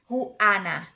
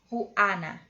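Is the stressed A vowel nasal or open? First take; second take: open; open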